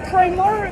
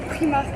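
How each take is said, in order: First: It is said with a full English accent. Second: It is said with a full French accent.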